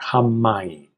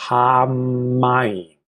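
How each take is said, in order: First: "Hamayim" said quickly as one smooth word; teacher shows students the natural, joined "Hamayim"; run together. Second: "hamayim" drawn out, syllables held apart; teacher first sounds out "hamayim" for students, slowly; slow, broken up. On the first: Smooth, run-together "Hamayim". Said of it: "you'll really say it together". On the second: Slow, separated "hamayim". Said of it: "Although when you say it, you'll really say it together". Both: Shown as a demonstration.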